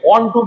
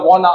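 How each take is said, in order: First: Both words are said fully and separately. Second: The words are run together into one reduced word. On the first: Standard language. The speaker calls it right. "वांट टू की जगह" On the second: Informal slang. The speaker calls it wrong. "These are American slangs"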